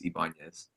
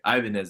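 First: The name is pronounced the Spanish way. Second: The name is pronounced the English way. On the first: This is the name's true pronunciation. "the real way to say it is Ibanez, like the Spanish pronunciation" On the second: It is easier for others to understand. "So I say Ibanez at the bar"

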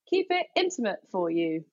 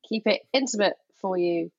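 First: It is read with lively, passionate intonation. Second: It is read flatly, without passion.

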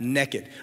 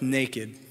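First: The word is said in a Southern accent. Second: The word is said in a standard accent.

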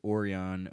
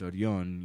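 First: The R in the name is not trilled. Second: The R in the name is trilled. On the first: This is how other people usually say the name. The speaker calls it wrong. "everybody was just like Orion" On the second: This is how the name is meant to be said. The speaker calls it right. "no, it's Orion. You have to trill the R"

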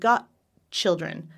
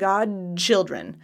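First: The D is unvoiced, sounding like 'got'. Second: The D is voiced, sounding like 'god'. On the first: "So it sounds like got children" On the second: "I'm voicing the D"

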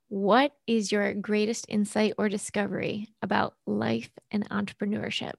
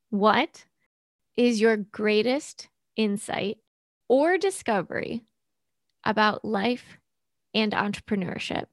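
First: It is asked at a normal speed. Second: It is asked slowly.

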